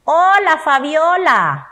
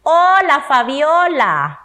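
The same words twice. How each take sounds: First: Loud, high "Hola", then a slow "Fabiola"; exclaimed greeting. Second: High, loud "Hola", then a slow, falling "Fabiola"; exclaimed greeting. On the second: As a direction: call out hello to Fabiola with delight. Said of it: "¿Otra vez?". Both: Shown as a demonstration.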